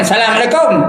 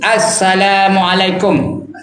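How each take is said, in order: First: The opening 'as' sound is swallowed. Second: The opening 'as' sound is clearly pronounced. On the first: The speaker calls it wrong. "Jangan Assalamualaikum. Tak betul" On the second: The speaker calls it right. "Salam tu kena nyata untuk Assalamualaikum"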